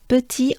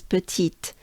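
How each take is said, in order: First: Petit with a silent final t; French petit, ending on the ee vowel; French pronunciation. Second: Petite with the final t sounded; English petite, ending on a clear t; English usage. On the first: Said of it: "in English often it is". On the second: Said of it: "in English often it is, uh, used as". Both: Shown as a demonstration.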